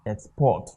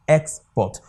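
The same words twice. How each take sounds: First: Export as a verb, ex-PORT; stress on second syllable. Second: Export as a noun, EX-port; stress on first syllable. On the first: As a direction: keep EX light in Export and land on PORT. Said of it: "asked us to pronounce it as a verb". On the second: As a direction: hit EX in Export and let port fall. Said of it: "it should pronounce like a noun". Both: Shown as a demonstration.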